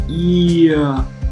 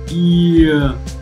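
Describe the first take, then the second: First: The vowel slides in from a glide at the start. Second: The vowel slides in from a glide at the start.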